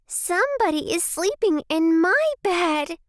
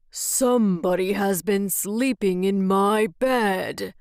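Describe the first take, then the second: First: Very high, squeaky bear cub; small squeaky baby voice. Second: Growling Father Bear; great big growly voice. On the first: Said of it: "said in his small, squeaky baby voice". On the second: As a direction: rumble it out like a huge gruff bear. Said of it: "said in his great, big, growly voice". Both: A narrator's reading.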